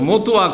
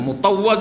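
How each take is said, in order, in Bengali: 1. শব্দটি ছোট করে, অযত্নে উচ্চারণ করা হয়েছে। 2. শব্দটি পুরোপুরি, যত্ন নিয়ে উচ্চারণ করা হয়েছে। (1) "কি বলে?" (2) "শুদ্ধ করে বলারও ঢং হয় না। আরে মোতাওয়া যদি বলে তাও একটা হয়।"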